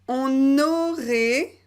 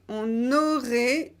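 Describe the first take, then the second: Both takes have the same delivery.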